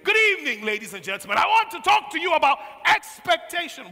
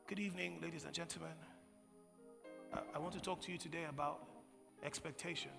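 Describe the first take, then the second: First: It is said in a confident, steady way. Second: It is said in a timid, hesitant way.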